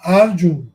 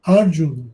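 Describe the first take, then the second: Both takes have the same delivery.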